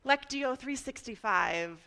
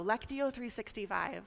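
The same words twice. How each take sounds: First: Slow, mild infomercial pitch. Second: Said in the usual way. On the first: Shown as a demonstration. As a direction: plug it like a little TV ad. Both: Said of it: "I wanna sound like a little infomercial".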